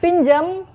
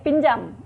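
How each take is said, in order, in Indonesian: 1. Vokal terakhir terdengar seperti 'e'. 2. Vokal terakhir terdengar seperti 'a'.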